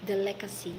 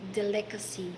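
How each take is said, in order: Both takes have the same delivery.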